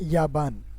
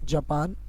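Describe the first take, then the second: First: It begins with y and has a b. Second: It begins with j and has a p. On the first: "so we can say in Arabic याबान" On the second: "if you are talking about जापान"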